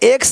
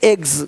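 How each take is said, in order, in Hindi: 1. यह शब्द ks की ध्वनि से खत्म होता है। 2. यह शब्द gz की ध्वनि से खत्म होता है। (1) "एक्स नहीं"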